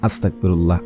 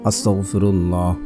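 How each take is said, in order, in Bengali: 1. শব্দটি অযত্নে উচ্চারণ করা হয়েছে, ধ্বনি বদলে গেছে। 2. শব্দটি যত্ন করে উচ্চারণ করা হয়েছে, প্রতিটি ধ্বনি স্পষ্ট। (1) "আবার পড়বেন না ... উচ্চারণ ভুল হয়ে যাবে।" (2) "অবশ্যই আপনারা ইস্তেগফার পড়বেন একশো বার।"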